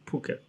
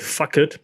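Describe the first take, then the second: First: The word begins with a p sound. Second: The word begins with an f sound. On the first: The speaker calls it right. "it's called Phuket" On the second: The speaker calls it wrong. "how the Americans say fuck it because it's spelled P H"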